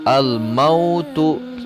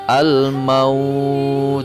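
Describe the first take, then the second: First: The word ends with the full vowel ending. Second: The word ends abruptly without its vowel ending. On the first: The reading continues without stopping. "Ditulisnya al-mautu" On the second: The reader stops at this word. "ketika waqaf atau berhenti membaca"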